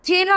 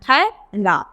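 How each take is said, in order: First: The first vowel is a plain e sound. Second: The first vowel is an ai sound. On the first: The speaker calls it wrong. "ये गलत उच्चारण" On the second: The speaker calls it right. "आय की ध्वनि"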